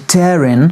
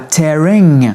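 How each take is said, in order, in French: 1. La terminaison se prononce sans aucun son ng. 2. La terminaison se prononce avec un son ng plein. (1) "sans prononcer le G et sans même prononcer le ng" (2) "elle dit pas tearing"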